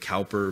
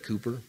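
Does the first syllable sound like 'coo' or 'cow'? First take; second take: cow; coo. First: The first syllable rhymes with 'now'. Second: The first syllable rhymes with 'too'. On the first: This is how the spelling suggests it is said. "I know it looks like Cowper" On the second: This is how British speakers say it. "the Brits pronounce that Cooper"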